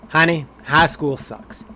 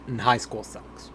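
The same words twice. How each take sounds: First: "high school sucks" said slowly and louder, as a dad to his daughter; fatherly reassurance. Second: Said in the usual way. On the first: Acted. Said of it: "I'm gonna go with high school sucks". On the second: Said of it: "do you wanna hear the options".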